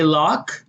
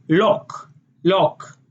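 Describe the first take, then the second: First: Said in the usual way. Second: "lock" with a round O sound; Israeli lock with O. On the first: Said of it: "So we say". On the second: Shown as a demonstration. Showing Israeli lock with an O vowel. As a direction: say "lock" as lohk. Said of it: "they say".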